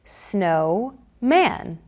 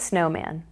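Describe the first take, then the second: First: Stretched out in two parts; slow segmented. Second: Said in the usual way. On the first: Shown as a demonstration. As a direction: say snow and man slowly apart. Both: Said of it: "here's how the magnetic blocks are used for blending two syllables".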